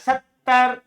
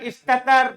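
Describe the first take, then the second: First: The two t sounds merge into one doubled t. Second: The two t sounds are kept separate. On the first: "di idgham" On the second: "dengan dibuka"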